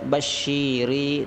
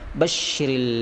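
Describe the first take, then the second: First: A vowel in the word is drawn out long. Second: Every vowel in the word is kept short. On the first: The speaker calls it wrong. "Tidak ada yang panjang pada kalimat basyiri. Jangan kita baca" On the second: The speaker calls it right. "tapi kita baca"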